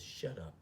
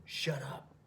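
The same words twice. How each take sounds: First: Said in the usual way. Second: Higher, sharper shut up; firm command. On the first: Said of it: "He says". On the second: Retold or imitated. Thomas silencing his demon firmly. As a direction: snap back at the inner voice. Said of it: "That's what Thomas says to him".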